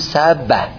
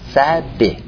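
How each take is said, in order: First: The b is followed by an a vowel. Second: The b is followed by an i vowel. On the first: "فتحن به تحریک یعنی بگو سبه" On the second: "و کسرن سبه"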